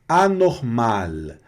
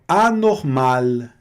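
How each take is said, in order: The two takes are said the same way.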